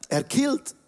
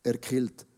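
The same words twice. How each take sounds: First: "Erkillt" pitched high with a rising tune, like an amused question; high rising repeat. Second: "Erkillt" dropped low and soft, like a muttered aside; low muttered repeat. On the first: Preacher playfully repeating his coined word, "Erkillt" high and rising. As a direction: lift "Erkillt" high, ending up in surprise. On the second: Preacher savouring his own coined word, "Erkillt" muttered low and soft. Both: Pretend.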